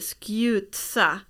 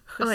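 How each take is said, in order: First: The t sound is clearly pronounced. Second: The t sound is left out. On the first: The speaker calls it wrong. "Man säger inte skjutsa" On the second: The speaker calls it right. "men man säger inte t"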